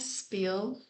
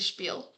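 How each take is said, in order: First: The word is said with an English pronunciation. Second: The word is said with a German pronunciation. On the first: "It's weird to say it like that" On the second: "In German, we say Spiel"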